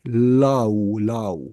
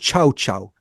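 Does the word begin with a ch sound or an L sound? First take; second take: L sound; ch sound. First: The word begins with an L sound. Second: The word begins with a ch sound. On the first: "it's written L L A O" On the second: "I think it's uh, pronounced Chow Chow"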